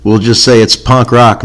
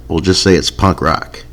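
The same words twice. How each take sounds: First: Said in the usual way. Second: Softer, lower throwaway repeat of "punk rock"; quiet aside. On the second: Shown as a demonstration. Host repeating his joke to listeners as a softer aside. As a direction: mutter it again under your breath.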